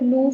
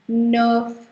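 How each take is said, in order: First: The vowel sounds like 'oo'. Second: The vowel sounds like 'er'. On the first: The speaker calls it wrong. "don't don't call it noof" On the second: The speaker calls it right. "It's not. It's nerf"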